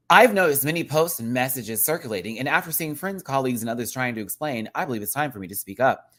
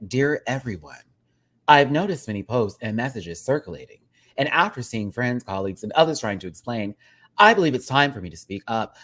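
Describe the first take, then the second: First: Said in the usual way. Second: Lightly robotic AI chat read; AI chatbot voice. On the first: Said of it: "I wanna read it respectfully here". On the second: Shown as a demonstration. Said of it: "read this in a robotic voice, like A I chat".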